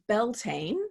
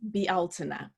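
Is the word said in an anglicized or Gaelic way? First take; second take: anglicized; Gaelic. First: It follows the English reading of the spelling. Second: It follows the Gaelic sound of the word. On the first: "spelled as if it were pronounced" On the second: "the Gaelic pronunciation is"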